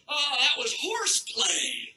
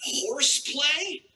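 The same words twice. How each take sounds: First: Slow, drawn-out mock excuse; mock casual excuse. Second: Slow, rising disbelief; incredulous echo. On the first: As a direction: brush it off, stretching the last word. Quoting Sandusky's lame excuse. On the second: Acted. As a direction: repeat it as a stunned question. Comedian disbelieving the quoted excuse.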